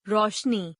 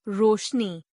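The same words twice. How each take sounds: First: रोशनी with "au" for "o"; mispronounced. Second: Said in the usual way. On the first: Shown as a demonstration. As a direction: say रोशनी as "raushni". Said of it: "अशुद्ध". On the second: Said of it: "शुद्ध".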